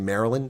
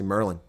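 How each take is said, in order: First: The name is said in its full form. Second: The name is said in a shortened form. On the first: This is how outsiders say it. "People in Maryland don't say Maryland" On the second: This is how locals say it. "They say Merlin"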